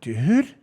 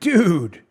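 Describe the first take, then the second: First: The word sounds alarmed and frightened. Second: The word sounds exasperated and disapproving. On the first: There is danger nearby. "there's a Jason Voorhees from Friday the thirteenth is sitting around the corner" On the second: Someone said something stupid. "your friend says something stupid"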